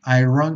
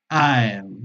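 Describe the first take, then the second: First: It is not a triphthong followed by n. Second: It is a triphthong followed by n. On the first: The speaker calls it wrong. "mucha gente dice iron" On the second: The speaker calls it right. "poniéndole al triptongo una N al final"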